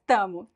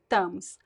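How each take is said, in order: First: The word ends without an S sound. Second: The word ends with an S sound.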